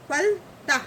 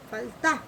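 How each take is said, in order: First: फलता split as phal, then tah; syllable by syllable. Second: फलता in one piece, short tah; joined-up word. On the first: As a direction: leave a gap inside फलता. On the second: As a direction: run phal and tah together in फलता. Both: Shown as a demonstration. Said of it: "इस तरह से पढ़ते हैं".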